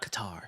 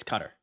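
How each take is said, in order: First: "Qatar" said kuh-TAR; "Qatar" as kuh-TAR, open ah at the end; kuh-TAR pronunciation. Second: "Qatar" said like "cutter"; "Qatar" as CUT-er, short second syllable; CUTTER pronunciation. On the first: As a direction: stress the second syllable of "Qatar": kuh-TAR. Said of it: "Not Qatar". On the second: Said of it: "It's Qatar". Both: Shown as a demonstration.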